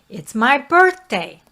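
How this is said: The pitch steps upward across the phrase. The speaker sounds confident. The speaker calls it right. "We want to be doing ascending scales, going up the scales"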